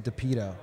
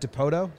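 First: The second vowel is an 'ee' sound. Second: The second vowel is an 'oh' sound. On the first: The speaker calls it wrong. "I was going to say DePito" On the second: The speaker calls it right. "is how you say it?"

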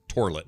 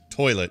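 First: The first syllable sounds like 'tor'. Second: The first syllable sounds like 'toy'. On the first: The speaker calls it wrong. "So it was like tor, T-O-R" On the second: The speaker calls it right.

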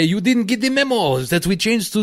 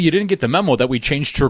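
First: It is said in a put-on French accent. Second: It is said in the speaker's ordinary accent.

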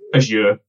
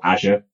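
First: The word is said with a British pronunciation. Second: The word is said with an American pronunciation. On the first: "depending on whether you're British or American" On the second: "depending on whether you're British or American"

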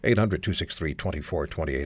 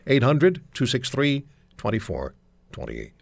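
First: The number is said at normal speed. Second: The number is said slowly.

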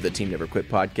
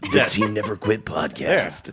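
First: It is said in the speaker's normal voice. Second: It is said in a dramatic put-on voice.

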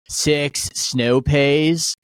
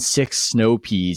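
First: It is said in a laid-back San Diego accent. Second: It is said in a plain, neutral accent. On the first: "The guy from San Diego, as he's listing the grocery items, he goes" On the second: "instead of saying"

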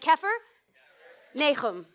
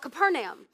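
First: The name is said with Hebrew pronunciation. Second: The name is said with English pronunciation. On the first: The speaker calls it right. "I may teach you the correct way to say this city's name" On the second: The speaker calls it wrong. "when we pronounce Capernaum, we call it Capernaum"

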